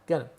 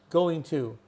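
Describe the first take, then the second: First: The words blend into one reduced word. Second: Both words are said fully and separately.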